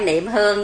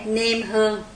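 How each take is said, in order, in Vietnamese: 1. Âm tiết đầu mang thanh nặng. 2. Âm tiết đầu mang thanh ngang. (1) "chứ không phải niệm hương nha" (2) "chúng ta có cái lễ niêm hương"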